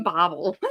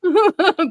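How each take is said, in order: First: "Bobble" said low and soft after a laugh; pron Bobble. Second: "Bobble" said high and loud; pron Bobble. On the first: Repeating the suggestion again, quieter. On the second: Repeating the host's suggested pronunciation, higher. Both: Shown as a demonstration. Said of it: "Or Bobble".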